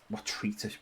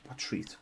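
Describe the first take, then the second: First: Said in the usual way. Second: Whispered "what treat?" under the breath; whisper to self. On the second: Real, not acted. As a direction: murmur "what treat?" with no voice, puzzled. Puzzled over missing treat.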